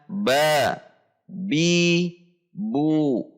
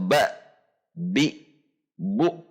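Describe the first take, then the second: First: Each syllable ends openly with no catch. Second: Each syllable ends with a glottal catch. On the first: The speaker calls it right. "tetapi dibaca" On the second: The speaker calls it wrong.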